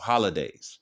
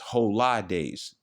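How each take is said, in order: First: It is run together as one word. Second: It is split into two separate words. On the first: It names ordinary holidays. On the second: It stresses that the days are holy.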